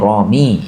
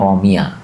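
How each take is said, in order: First: The word ends with a plain 'ee' sound. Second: The word ends with a 'ya' syllable. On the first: The word is read in the nominative case. "Kalau sejak awal kita baca sani'u, nah, berarti di sini romi" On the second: The word is read in the accusative case. "Kalau dari awal kita baca mansub sani'a berarti berikutnya romiya"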